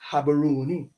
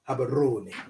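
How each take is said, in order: First: The r is said as a plain English r. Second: The r is rolled with the tongue. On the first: "I'm saying it in English so you get it" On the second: "they will roll the tongue"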